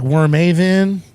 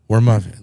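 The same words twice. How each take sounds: First: The middle A is said clearly and strongly. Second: The middle A is reduced, nearly silent. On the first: The speaker calls it wrong. "they throw the A like it's a big deal" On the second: The speaker calls it right. "Like it's not even there"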